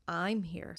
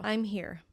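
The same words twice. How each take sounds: First: I'm stretched for emphasis; stress on I'm. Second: Said in the usual way. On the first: Shown as a demonstration. Teacher shows vocal emphasis, stress on I'm. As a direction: put the weight on I'm. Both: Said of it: "vocally stress the word".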